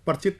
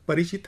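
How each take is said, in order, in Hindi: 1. पहला अक्षर र से बंद होता है, उसमें कोई स्वर नहीं है। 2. र के बाद एक छोटा स्वर आता है। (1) "र जो है साकिन तो नहीं है, परिचित तो नहीं है" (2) "परिचित है"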